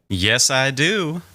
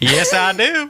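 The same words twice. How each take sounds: First: It is said in the speaker's normal accent. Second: It is said in a put-on southern accent.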